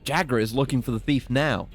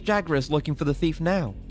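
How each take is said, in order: First: It is read in his ordinary speaking voice. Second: It is read in a put-on character voice. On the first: The speaker calls it wrong. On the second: The speaker calls it right.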